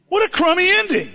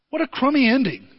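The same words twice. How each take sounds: First: "What a crummy ending" said higher and louder, in mock outrage; hammed-up higher moan: "What a crummy ending"; exaggerated disgust. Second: Said in the usual way. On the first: Real, not acted. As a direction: repeat it as a louder, higher complaint.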